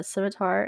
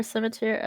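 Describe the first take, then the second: First: "scimitar" ending in an open "-tar"; corrected scimitar. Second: "scimitar" with a slipped last syllable, like "scimiteer"; mispronounced scimitar. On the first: Corrects the stumbled word. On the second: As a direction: end "scimitar" on a mistaken "-teer". Stumbles, then corrects the word. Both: Real, not acted.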